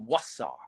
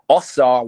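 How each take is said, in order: First: The name begins with a 'w' sound. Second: The name begins with a plain 'o' vowel. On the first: The speaker calls it right. "it's really Wasar" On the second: The speaker calls it wrong. "like Osar"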